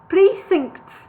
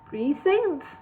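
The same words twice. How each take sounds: First: It is said without a questioning rise. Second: It is said with a questioning rise.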